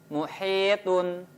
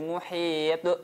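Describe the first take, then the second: First: The word ends with a vowel and n. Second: The word ends on a stopped consonant.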